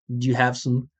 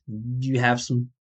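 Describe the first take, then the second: Both takes have the same delivery.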